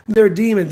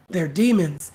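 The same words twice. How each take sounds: First: Louder mock preacher. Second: Mock preacher. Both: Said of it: "walking around saying".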